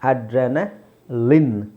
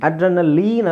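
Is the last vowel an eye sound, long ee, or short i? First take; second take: short i; long ee. First: The last syllable has a short i vowel. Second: The last syllable has a long ee vowel. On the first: The speaker calls it right. "ಲಿನ್" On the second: The speaker calls it wrong. "ಅಡ್ರೆನಲೀನ್ ಅಲ್ಲ"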